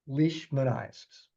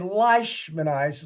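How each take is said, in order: First: The first vowel sounds like 'see'. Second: The first vowel sounds like 'eye'. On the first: The speaker calls it right. "it's Leishman" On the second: The speaker calls it wrong. "you don't say leishmaniasis like a German E I"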